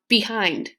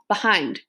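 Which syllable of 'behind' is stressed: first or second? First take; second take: first; second. First: The stress is on the first syllable. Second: The stress is on the second syllable. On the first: The speaker calls it wrong. "If you stress the first syllable" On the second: The speaker calls it right. "you stress hind"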